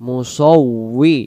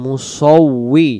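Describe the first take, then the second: The two takes are said the same way.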